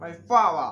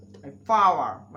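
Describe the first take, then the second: First: Said in the usual way. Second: Power drawn out very slowly as paa, louder; very slow, loud British demo of my power; slow drill. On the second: Shown as a demonstration. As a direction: stretch my power out slowly and loudly. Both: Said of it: "আমার ক্ষমতা".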